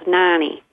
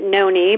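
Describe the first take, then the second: First: The first vowel of the name is short. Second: The first vowel of the name is long. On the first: This is the regional family way of saying it. "in the Midwest, you know, we have the short vowels" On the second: This is how some other people say it. "some people pronounce it Noni"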